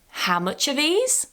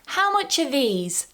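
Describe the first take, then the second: First: The voice rises at the end. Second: The voice falls at the end. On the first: The speaker is surprised at the price. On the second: It is a genuine question about the price.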